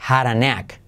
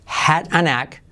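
First: "had a" linked as "hara" before knack; D as soft R. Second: Said in the usual way. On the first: Shown as a demonstration. Teacher demonstrating the rule, "had a" with soft R. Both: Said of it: "la D la convertimos como R suave".

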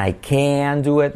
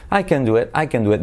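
First: Slow, with CAN drawn out as "keh-an"; said slowly. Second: Quick, with CAN reduced to "ken"; said quickly. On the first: Teacher showing the slow version, drawn-out. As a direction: stretch CAN out, unhurried and higher. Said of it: "dicho despacio". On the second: Teacher showing the fast version, said quickly. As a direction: run it together, short "eh" in CAN. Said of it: "dicho rápido". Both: Shown as a demonstration.

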